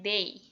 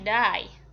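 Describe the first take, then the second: First: The vowel sounds like 'day', British style. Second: The vowel glides like 'die', Australian style. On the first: "Inggris itu dia pakainya day" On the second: "Kalau orang Australia dia pakainya die"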